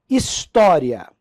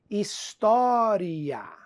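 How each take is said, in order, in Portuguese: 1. As vogais finais se juntam numa só sílaba. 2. As vogais finais se separam em duas sílabas. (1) "paroxítona terminada em ditongo" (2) "alguns gramáticos vão admitir"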